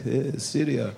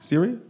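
First: Put-on Syria with a tapped r, in accent; deadpan imitated Syrian accent. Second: Said in the usual way. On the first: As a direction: mimic a Syrian man saying Syria. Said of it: "He's like".

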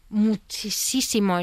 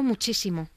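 First: "muchísimo" muy lento, sílaba a sílaba; énfasis alargado. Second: Said in the usual way. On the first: Real, not acted. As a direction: estira mucho las sílabas de "muchísimo". Repite la palabra para enfatizar. ("muchísimo" recalcado, alargado y lento)

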